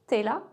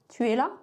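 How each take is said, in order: First: The word tu is shortened to t'. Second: The word tu is said in full. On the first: "tu es là devient t'es là" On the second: "tu es là devient t'es là"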